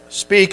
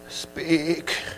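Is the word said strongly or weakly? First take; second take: strongly; weakly. First: It is said with normal strength. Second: It is said weakly and timidly.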